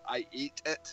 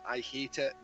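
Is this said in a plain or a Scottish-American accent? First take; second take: Scottish-American; plain. First: Scottish-American accent, with the h in hate dropped. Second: Plain accent, with the h in hate pronounced.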